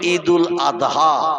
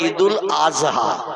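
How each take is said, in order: First: The consonant before 'ha' sounds like d. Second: The consonant before 'ha' sounds like z. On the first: The speaker calls it right. "আমরা বলি ঈদুল আদহা" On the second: The speaker calls it wrong. "ওরা বলে ঈদুল আজহা। ... মানে জয় অক্ষর উচ্চারণের মতো আওয়াজ করে বলে।"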